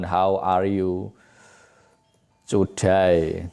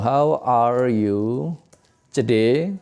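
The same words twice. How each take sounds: First: The last word is said like 'to die'. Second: The last word is said like 'today'. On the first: It asks how someone will die. The speaker calls it wrong. "bukan how are you today" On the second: It asks how someone is. The speaker calls it right. "Bagaimana kabarmu?"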